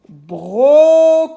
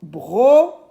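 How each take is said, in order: First: Brocoli high, loud and slow, joined up; stretched syllables. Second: Brocoli in three beats with clear gaps; syllable by syllable. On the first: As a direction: hold the Os of "Brocoli" long. (brocoli fort et étiré, sans coupure) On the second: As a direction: break "Brocoli" apart: bro, co, li. (brocoli découpé, pause entre les syllabes) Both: Shown as a demonstration. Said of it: "j'entends o dans bro".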